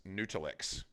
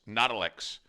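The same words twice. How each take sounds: First: "Noodle X" with long oo like noodle; long oo pronunciation. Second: "Nuddle X" with nut-like u, "NUT-ul"; short u pronunciation. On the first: Streamer showing chat the other pronunciation, "Noodle". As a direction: say "Noodle X" as in pasta noodle. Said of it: "Nuddle X or Noodle X?". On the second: Streamer showing chat one pronunciation, "Nuddle". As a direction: say "Nuddle X" rhyming with puddle. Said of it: "Why do you say it like that?". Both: Shown as a demonstration.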